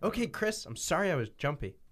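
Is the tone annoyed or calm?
annoyed. It is said in an annoyed, mad tone.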